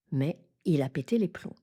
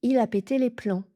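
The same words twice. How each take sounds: First: "plombs" with a closed rounded "on" nasal; correct nasal. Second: "plombs" said with an open "an" nasal, like "plans"; wrong nasal. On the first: Teacher giving learners the right nasal, plain pace. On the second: Teacher showing the wrong nasal to learners, plain pace. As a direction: make "plombs" sound like "plans". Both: Shown as a demonstration. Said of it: "Je n'ai pas dit".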